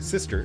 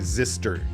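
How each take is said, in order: First: The word begins with a clear S sound. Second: The word begins with a buzzing Z sound. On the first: The speaker calls it right. "to get the S sound" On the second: The speaker calls it wrong. "otherwise I would just say zister"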